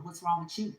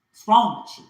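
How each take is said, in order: First: Softer, half-muttered reproach; muttered what's wrong with you; quiet scolding question. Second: Louder, sharp demanding shout; furious what's wrong with you; shouted scolding. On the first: Ancestors scolding, first take quiet. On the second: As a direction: yell it at them in anger. Ancestors scolding, repeated loud. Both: Acted.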